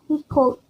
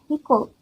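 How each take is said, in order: The two takes are said the same way.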